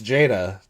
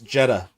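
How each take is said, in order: First: The first vowel sounds like 'ay'. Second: The first vowel sounds like 'eh'. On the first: This is how the spelling would be read. "That's how those letters are pronounced" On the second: This is how others say the name. "it was pronounced Jeddah"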